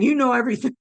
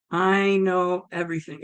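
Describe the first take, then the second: First: Slightly lifted, quicker echo; dawning realisation. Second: Lightly voiced solemn deity; voice of God. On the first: Retold or imitated. Woman echoing God, mildly amazed. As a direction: echo it back in mild wonder. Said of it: "As I'm saying". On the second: God to the woman, lightly voiced solemn assurance. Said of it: "And it was like".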